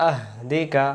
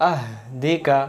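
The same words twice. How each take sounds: The two takes are said the same way.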